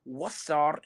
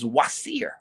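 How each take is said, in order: First: The last syllable has an 'a' vowel. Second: The last syllable has an 'i' vowel.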